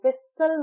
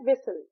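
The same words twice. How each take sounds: First: A t sound is heard after the s. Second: No t sound is heard after the s. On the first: The speaker calls it wrong. "विसल नहीं कहते" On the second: The speaker calls it right. "हम कहते हैं विसल"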